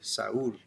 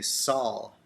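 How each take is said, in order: First: The name is said with a Mexican pronunciation. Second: The name is said with an American pronunciation. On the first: "but in Mexico they usually say Saul" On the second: "Like in English, or at least in the U S, we'll say Saul"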